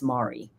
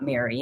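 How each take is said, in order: First: The name rhymes with sorry. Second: The name is said like Mary. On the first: The speaker calls it right. "It's Mari. / Mari rhymes with sorry" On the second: The speaker calls it wrong. "It's not Mary"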